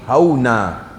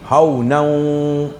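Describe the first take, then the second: First: The word ends on a long a vowel. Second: The word ends with a nasal n sound. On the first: The reciter stops after this word. "quand nous arrêter" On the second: The reciter carries on to the next word. "si nous continuons"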